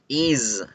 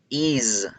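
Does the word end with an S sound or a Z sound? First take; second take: Z sound; Z sound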